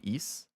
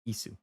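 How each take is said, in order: First: It ends on the s with no vowel. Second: A final u vowel is heard after the s. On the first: "if you take away the U" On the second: "In Japanese, it's pronounced Isu"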